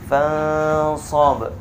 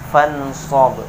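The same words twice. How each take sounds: First: The n is hidden in a long nasal hum. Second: The n is pronounced clearly without nasal hum. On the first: The speaker calls it right. "ditekuk didekat didengungkan dua harokat" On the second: The speaker calls it wrong. "Dijelaskan nunnya tidak didengungkan"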